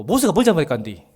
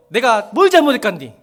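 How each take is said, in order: First: Said in the usual way. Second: Louder protest to God, stress on 뭘; indignant protest. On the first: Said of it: "가나안 땅에 들어가지 말라네". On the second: Retold or imitated. Worshipper protesting to God, loud and indignant. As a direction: complain to God about 뭘 잘못했간디, raised. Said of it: "소리 지르시라니까요".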